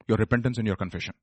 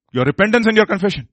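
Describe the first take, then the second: First: Soft, low, quick answer; hushed answer. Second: Higher, firmer preacher's answer; raised answer. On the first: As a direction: drop the voice for the answer. Answers own question softly. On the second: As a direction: lift the voice to drive the answer home. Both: Acted.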